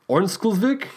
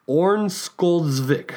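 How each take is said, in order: First: Ornsköldsvik asked as a question with a rising end; unsure second try. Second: Ornsköldsvik sounded out syllable by syllable, slowly; careful first try at a Swedish name. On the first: Host doubting his own pronunciation, rising question. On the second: Host trying out a Swedish town name for listeners, slow and careful. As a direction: slowly spell out Ornsköldsvik with your mouth. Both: Shown as a demonstration. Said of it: "let's see, let's try here".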